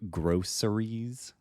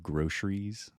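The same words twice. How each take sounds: First: The middle consonant is a plain 's' sound. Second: The middle consonant is an 'sh' sound.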